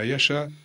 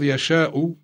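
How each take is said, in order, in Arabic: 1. تُنطق الكلمة بصورة مختصرة وفق الوزن الشعري. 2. تُنطق الكلمة بصورتها الفصيحة الكاملة. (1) "ولكن اقتضى الوزن الشعري أن تلفظ هكذا" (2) "اللفظ يشاء"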